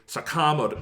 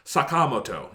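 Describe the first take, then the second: First: It is said with English-style stressed syllables. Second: It is said with even Japanese-style syllables. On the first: The speaker calls it wrong. "they will say Sakamoto" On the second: The speaker calls it right. "It's Sakamoto"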